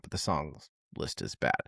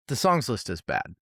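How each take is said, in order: First: Low, quiet verdict. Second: Said in the usual way. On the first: Real, not acted. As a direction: drop low and soft on the repeat. Repeating verdict for emphasis.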